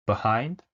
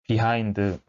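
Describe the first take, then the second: First: Behind as bi-HIND, light first syllable; 원어민 발음; native behind. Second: Behind as pi-hain-deu with extra vowel at the end; 한국식 behind; Konglish behind. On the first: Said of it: "전혀 다릅니다". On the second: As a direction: say behind Korean-style with a trailing eu. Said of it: "뭐 이런 식으로 읽으실". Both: Shown as a demonstration.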